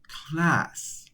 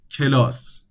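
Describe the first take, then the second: First: It is spoken with a higher, lighter voice. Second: It is spoken with a deep, low-placed voice. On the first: "Not like English" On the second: "Persian, you wanna speak deep"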